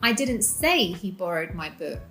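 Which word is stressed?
say. The stress falls on the word 'say'. Something else was said instead. "I said something else"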